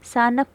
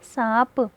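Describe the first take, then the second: First: A full n sound is said before the p. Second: The vowel is nasalized with no full n. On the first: The speaker calls it wrong. "सानप तो नहीं पढ़ा आपने" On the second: The speaker calls it right. "नून गुन्ना को आधा नून पढ़ा जाएगा"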